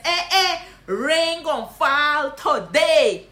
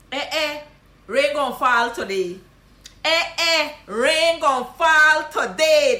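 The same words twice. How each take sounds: First: Loud, slow Guyanese Creole tease with a laugh; laughing Guyanese greeting. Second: Loud, slow Guyanese Creole mock surprise; surprised Guyanese greeting. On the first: Guyanese teacher teasing a friend, laughing. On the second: Guyanese teacher teasing a rarely seen friend. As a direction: tease the long-lost friend. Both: Shown as a demonstration. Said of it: "This is what you gonna say".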